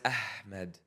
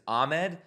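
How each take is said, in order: First: The name is said with an Arabic pronunciation. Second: The name is said with an English pronunciation. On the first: The name is kept as it truly is. The speaker calls it right. "when it's Ahmed" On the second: The name is adapted for English speakers. The speaker calls it wrong. "change their name to like a English pronunciation"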